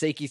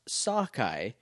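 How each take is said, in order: First: The name is said like 'Seiki'. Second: The name is said like 'Sokai'. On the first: This is a first-time misreading of the name. The speaker calls it wrong. "this is how I read it the first time from iTunes" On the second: This is the intended pronunciation of the name. The speaker calls it right. "It's pronounced Sokai"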